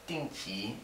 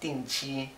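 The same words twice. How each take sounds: First: The second syllable is not said with a flat tone. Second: The second syllable is said with a flat tone. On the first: This is how it is said in Taiwan. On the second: This is how it is said in China.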